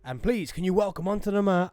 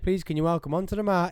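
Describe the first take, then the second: First: It is said in a dramatic announcer voice. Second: It is said in a plain normal voice.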